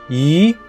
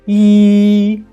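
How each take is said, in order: First: The pitch rises from mid to high. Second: The pitch stays high and level. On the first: "The second tone is an up" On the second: "The first tone is E"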